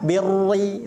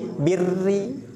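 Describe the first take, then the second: First: The r is pronounced heavy and thick. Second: The r is pronounced light and thin. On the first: The speaker calls it wrong. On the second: The speaker calls it right. "tapi birri"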